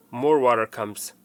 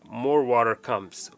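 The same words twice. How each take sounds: The two takes are said the same way.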